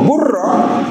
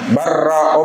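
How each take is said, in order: First: The first vowel is u. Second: The first vowel is a. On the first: The speaker calls it wrong. "Wala taqulu burra" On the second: The speaker calls it right. "taqulu barra"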